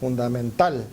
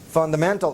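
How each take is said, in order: First: The main stress is on the last syllable. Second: The main stress is on the third syllable. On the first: This is the Spanish pronunciation. "vendría siendo aguda" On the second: This is the English pronunciation. "Which is the strongest? Man, right here"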